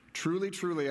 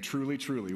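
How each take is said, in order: First: "Truly, truly" said a bit higher, each truly weighted; stress on truly. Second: Said in the usual way. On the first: Shown as a demonstration. Jesus demands attention with weighted "Truly, truly". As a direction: lean on both "truly"s to make them listen. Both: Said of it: "which means pay attention".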